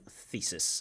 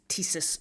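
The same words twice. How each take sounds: First: The word begins with a soft TH sound. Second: The word begins with a plain T sound. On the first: The speaker calls it right. "instead of thesis" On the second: The speaker calls it wrong. "he uses thesis"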